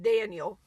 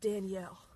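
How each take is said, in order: First: The name is said the English way. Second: The name is said the French way. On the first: This is how it is spelled. "I'm calling it Daniel" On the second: This is how the diners say it. "they all pronounce it Danielle"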